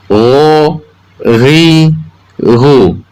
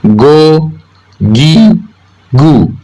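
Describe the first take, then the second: First: Ro, ri, ru as gho, ghi, ghu, voiced throat friction; Arabic ghoin. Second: Go, gi, gu with a louder hard g from the tongue root; hard Indonesian g. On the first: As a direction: make Ro, ri, ru a gargled ghoin from the upper throat. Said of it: "ghoin keluar melalui ujung tenggorokan". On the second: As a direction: stop the breath at the back of the tongue for go, gi, gu. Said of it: "go keluar melalui pangkal lidah". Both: Shown as a demonstration.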